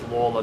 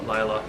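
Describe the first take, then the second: First: The name is said like 'Lawler'. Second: The name is said like 'Layla'. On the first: The speaker calls it right. "the correct pronunciation is Lawler" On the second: The speaker calls it wrong. "not Layla"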